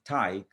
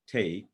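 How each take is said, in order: First: Taik said with a wide "eye" vowel, rhyming with bike; taik dialect vowel. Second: Said in the usual way. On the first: Shown as a demonstration. Lecturer showing students the dialect form of take, slow, with an eye vowel. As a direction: stretch taik slowly so the vowel sounds like "tyke". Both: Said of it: "is pronounced taik".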